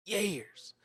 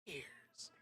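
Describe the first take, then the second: First: Years. lifted much higher, falling; emphatic repeat. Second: Breathy, fading years; whispered years. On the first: Streamer marvelling at years off Twitch, exclaimed. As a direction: echo Years. with a high exclamation. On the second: Streamer marvelling at years off Twitch, whispered. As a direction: let years trail off in a whisper. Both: Real, not acted.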